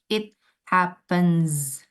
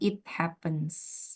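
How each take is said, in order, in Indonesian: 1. Bunyi akhirnya adalah z yang berdengung. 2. Bunyi akhirnya adalah s yang mendesis. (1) "the pronunciation becomes Z"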